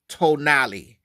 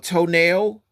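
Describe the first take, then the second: First: The word ends with a 'nah-lay' sound. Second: The word ends with a 'nail' sound. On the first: The speaker calls it right. "It's actually tonali" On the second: The speaker calls it wrong. "some people might think it says a toenail or toenail, but it's not"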